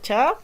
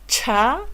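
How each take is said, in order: First: The consonant is plain, without a breath or pop. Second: The consonant is followed by a puff of breath. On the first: "consonantes simples" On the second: "Las aspiradas, como bien dijimos, son las que van a tener una H extra"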